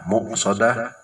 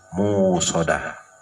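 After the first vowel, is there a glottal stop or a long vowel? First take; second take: glottal stop; long vowel. First: A glottal stop follows the first vowel. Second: A long u vowel replaces the glottal stop. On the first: "bil hamzi menggunakan huruf hamzah" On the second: "wabil wawi dan pakai waw"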